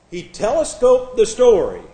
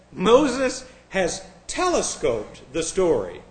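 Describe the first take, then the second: First: Louder, "telescoped" hit hard and scornfully; indignant repeat. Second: Slow, drawn-out mocking read of the scholar; mock quote. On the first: Retold or imitated. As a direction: throw the word telescoped back at him. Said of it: "Telescoped it?". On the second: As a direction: savor each word as if it's absurd. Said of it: "He says".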